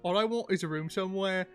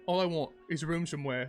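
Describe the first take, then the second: First: It is said in a put-on character voice. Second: It is said in a more normal voice.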